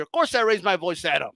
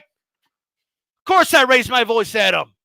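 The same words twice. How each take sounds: First: Said in the usual way. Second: Slow emphatic repeat. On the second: Shown as a demonstration.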